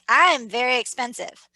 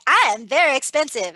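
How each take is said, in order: First: It is said timidly, without conviction. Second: It is said confidently, with conviction.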